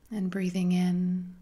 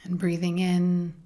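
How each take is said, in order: Both takes have the same delivery.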